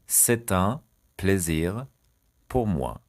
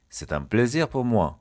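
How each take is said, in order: First: "C'est un", "plaisir", "pour moi" split by pauses; word by word. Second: Said in the usual way. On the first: Shown as a demonstration. Teacher dictating a French phrase to learners, chunk by chunk. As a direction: break the phrase into three separate chunks.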